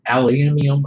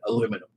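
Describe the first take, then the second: First: It is said with five syllables, British style. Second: It is said with four syllables, American style. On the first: This is how it is said in the UK. "I know there's a different pronunciation" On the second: This is how most people over here say it. "that's how I say it"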